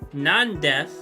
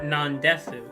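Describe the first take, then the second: First: The final U vowel is dropped. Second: The final U vowel is pronounced. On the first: The speaker calls it right. "you normally don't pronounce it" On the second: The speaker calls it wrong. "that would just sound weird"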